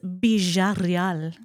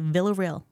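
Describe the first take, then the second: First: The name is said in Spanish, starting with B. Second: The name is said with English sounds. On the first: This is how people in Spain say it. "And if you're in Spain, it's Villarreal" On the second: This is how people in the military say it. "so they say Villarreal"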